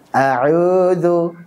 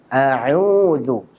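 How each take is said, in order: First: The long u vowel sounds weak and unrounded. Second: The long u vowel sounds clear and rounded. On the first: The speaker calls it wrong. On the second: The speaker calls it right. "supaya suara dhammahnya dan matnya wawunya jelas"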